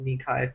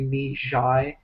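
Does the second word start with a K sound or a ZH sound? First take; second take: K; ZH. First: The second word starts with a K sound. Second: The second word starts with a ZH sound. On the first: The speaker calls it wrong. "that's not called Ni Kai" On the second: The speaker calls it right. "It's actually Ni Zhai"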